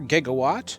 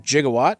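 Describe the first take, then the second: First: It uses the common, everyday pronunciation. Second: It uses the pronunciation heard in the movie.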